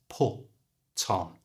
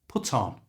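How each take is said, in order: First: It is said slowly and carefully. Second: It is said quickly, like one word.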